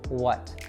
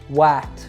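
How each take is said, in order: First: The vowel is reduced to a schwa. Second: The vowel is full and unreduced. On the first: The speaker calls it right. "We reduce it to a schwa sound" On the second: The speaker calls it wrong. "we don't say a full what"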